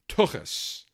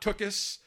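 First: The ch is rasped in the throat. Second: The ch is a plain hard sound. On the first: The speaker calls it right. "Got to have the ch in the back of the throat" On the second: The speaker calls it wrong. "Not tuchus"

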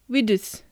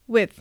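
First: A clear d sound is heard before th. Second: The breath stops briefly, unreleased, before th. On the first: The speaker calls it wrong. "スペルのまま読んでしまうとwidth" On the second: The speaker calls it right. "wit という発音の後にTH のth という音を組み合わせてwith となります"

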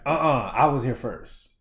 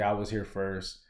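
First: It is said in a rude, demanding tone. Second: It is said in a polite, respectful tone. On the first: The speaker is making a demand. The speaker calls it wrong. "What I don't want to see is people being like" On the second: The speaker is making a gentle correction. The speaker calls it right. "just do it respectfully"

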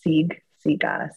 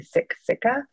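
First: The k sound is soft, almost a g. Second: The k sound is a hard, crisp k. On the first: It is said the way the community says it. The speaker calls it right. "more of a soft, almost a G sound" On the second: It is read the way English spelling suggests. The speaker calls it wrong. "if you're reading it with an English kind of mindset"

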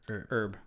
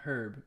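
First: The word is said the American way. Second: The word is not said the American way. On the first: The speaker calls it right. "Because we're Americans" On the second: The speaker calls it wrong. "Not herb"

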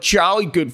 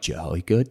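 First: It is said with folksy enthusiasm. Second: It is said in a flat, plain way.

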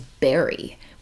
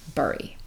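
First: The first vowel sounds like the one in 'berry'. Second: The first vowel sounds like the one in 'burrow'. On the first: The speaker calls it right. "the correct pronunciation of the word B-U-R-Y is bury" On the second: The speaker calls it wrong. "So I say it wrong"

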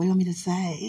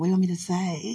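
First: It is said in a put-on sexy voice. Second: The same.

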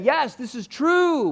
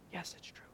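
First: It is said loudly and with confidence. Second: It is said quietly and with uncertainty.

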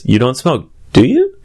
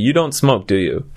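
First: The voice rises at the end. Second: The voice falls at the end.

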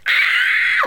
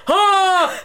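First: It is a high, girly scream. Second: It is a low, bellowing yell.

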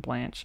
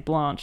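First: It is said in an American accent. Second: It is said in the speaker's own non-American accent.

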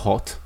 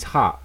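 First: The word is said in a British accent. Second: The word is said in an American accent. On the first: "if I say it, I'm like" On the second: "they say hot in a different way to the way I say hot. So they say"

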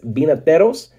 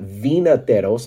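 First: The word begins with a B sound. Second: The word begins with a V sound. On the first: The speaker calls it right. "the V in Spanish is pronounced like a B" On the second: The speaker calls it wrong. "so it's not vinateros"

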